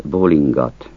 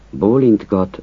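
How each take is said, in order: First: Bólingat with the t dropped, ng together; casual bólingat; shortened bólingat. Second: Bólintgat with n-t-g all sounded; careful bólintgat with every consonant; full bólintgat. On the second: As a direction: say bólintgat keeping the t. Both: Shown as a demonstration. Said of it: "Azt a kiejtés változatot".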